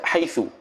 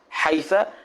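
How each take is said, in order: First: The word ends with a u vowel. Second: The word ends with an a vowel. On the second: "wal fathu"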